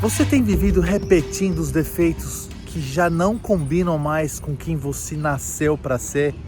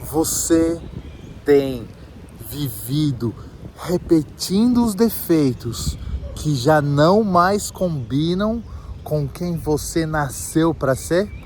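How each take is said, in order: First: It is said at normal speed. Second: It is said slowly.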